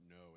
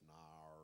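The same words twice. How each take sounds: First: Said in the usual way. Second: Australian accent, "nar" with an open, unrounded vowel and no glide. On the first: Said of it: "Just saying no, it's not no". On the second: Shown as a demonstration. Voice actor shows fans the Australian "no" as "nar". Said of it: "Just saying no, it's not no, it's nar".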